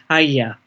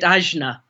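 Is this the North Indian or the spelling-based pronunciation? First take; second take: North Indian; spelling-based. First: It is pronounced the North Indian way. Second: It is pronounced as the Western spelling suggests. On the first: "in the Northern Indian ashram I was in, it was pronounced Agya" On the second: "people who haven't heard it being pronounced by Indians call it Ajna"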